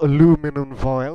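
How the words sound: It is said in an American accent.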